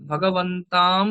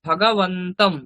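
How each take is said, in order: First: The final syllable is drawn out with a long vowel. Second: The final syllable is said quickly with a short vowel. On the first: The speaker calls it wrong. "ভগবন্তাম বললে একটু সম- মানে আঘাত তো নেই" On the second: The speaker calls it right. "তমটা তাড়াতাড়ি বলবেন"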